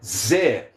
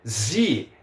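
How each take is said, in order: First: The vowel sounds like 'eh'. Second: The vowel sounds like 'ee'. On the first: The speaker calls it right. "as letras Is têm som de E" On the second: The speaker calls it wrong. "Não é Z"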